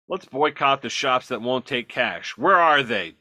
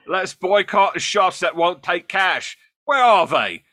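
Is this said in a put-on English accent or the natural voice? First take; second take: natural; English. First: It is read in the speaker's natural accent. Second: It is said in a put-on Cockney-like English accent.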